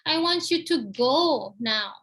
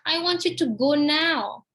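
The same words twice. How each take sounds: First: The word "go" is stressed. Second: The word "now" is stressed. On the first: The person should leave, not stay sitting. "Pergi sekarang, jangan duduk aja" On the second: The leaving should happen now, not tomorrow. "Now, not tomorrow, now"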